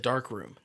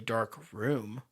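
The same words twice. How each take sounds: First: Said as one word with no pause. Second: Said as two words with a pause. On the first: A room for developing photos. The speaker calls it right. "It's one word" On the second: A room without light. The speaker calls it wrong. "you can't say it with a pause in the middle"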